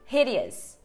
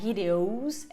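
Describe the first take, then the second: First: The ending is said with a weak 'uh' vowel. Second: The ending is said with a full 'o' vowel. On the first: The speaker calls it right. "é hideous" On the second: The speaker calls it wrong. "Não é hideous"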